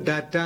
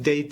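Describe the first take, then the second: First: The first vowel is an open 'ah' sound. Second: The first vowel is a 'day' sound. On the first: The speaker calls it wrong. "നമ്മൾ ഡാറ്റ എന്ന് പറയും" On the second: The speaker calls it right. "ശരിക്കും ഡേറ്റ ആണ്, ഡെയ്"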